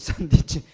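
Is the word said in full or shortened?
shortened. It is said shortened, with clipped syllables.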